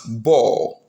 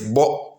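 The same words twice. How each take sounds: First: The final vowel is stretched long. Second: The final vowel is short. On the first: It is in the past tense. "because we've added another o to it to get the past, it becomes bo" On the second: It is in the present tense. "The present tense, remember, it is bo"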